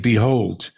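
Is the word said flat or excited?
flat. It is said flatly, without excitement.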